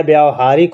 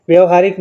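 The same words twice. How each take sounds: First: व्यावहारिक with a long aa after vy, vyaav-haarik; व्यावहारिक said correctly with a long aa; correct long-a version. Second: व्यवहारिक with a short first a, vyav-haarik; व्यवहारिक said wrongly with a short a; wrong short-a version. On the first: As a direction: stretch the aa in व्यावहारिक, teaching the correct form. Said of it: "मात्रा आ जाएगी बड़ा आ की". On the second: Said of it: "व्यवहारिक नहीं होता है". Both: Shown as a demonstration.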